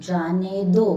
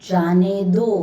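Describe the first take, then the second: Both takes have the same delivery.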